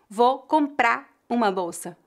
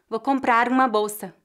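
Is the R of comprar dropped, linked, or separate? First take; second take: dropped; linked. First: The final R of comprar is dropped. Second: The R links smoothly into the following vowel. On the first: "algumas pessoas fariam a redução fonética da letra R" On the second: "A pronúncia mais natural seria"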